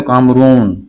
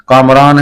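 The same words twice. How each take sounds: First: कामरून with oo wrongly replacing aa; mistaken colloquialised name. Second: कामरान keeping long aa before n; correct personal name. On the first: Teacher showing what is not said, mistaken pronunciation. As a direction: end कामरून on -oon as the mistake. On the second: Teacher citing a person's name, correct pronunciation. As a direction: leave the -aan ending of कामरान intact. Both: Shown as a demonstration. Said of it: "नहीं बोलेंगे".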